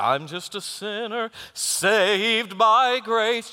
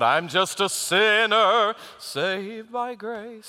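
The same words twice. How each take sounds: First: The word 'grace' is stressed. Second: The word 'sinner' is stressed. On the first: Being saved by grace is put at the center. The speaker calls it right. "That's not the way you do that song. You do" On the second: Being a sinner is put at the center. The speaker calls it wrong. "they'd sing that word sinner real big and loud"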